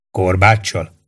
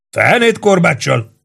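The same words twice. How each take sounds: First: Said in the usual way. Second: High, drawn-out indignant denial; indignant outburst. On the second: A narrator's reading. Barry rejects the idea of a whip, indignant. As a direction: burst out in affronted disbelief, pitch up. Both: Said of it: "robbant ki méltatlankodva Barry".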